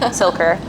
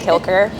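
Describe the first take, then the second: First: The name begins with an S sound. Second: The name begins with a K sound. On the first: The speaker calls it right. "So it's like" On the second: The speaker calls it wrong. "I've been mispronouncing her name this entire time. I've been saying"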